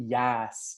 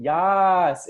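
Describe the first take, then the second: First: Said in the usual way. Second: A big, loud, high "Yas" cheered out; excited cheer. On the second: Shown as a demonstration. Coach hyping the chat audience, loud cheering "Yas". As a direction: shout "Yas" like hyping up a crowd. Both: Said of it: "type in".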